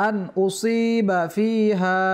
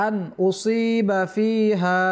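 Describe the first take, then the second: The two takes are said the same way.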